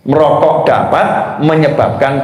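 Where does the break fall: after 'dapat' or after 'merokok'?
after dapat. The break comes after the word 'dapat'. Smoking cigarettes you got for free causes cancer. The speaker calls it right. "cara bacanya begini"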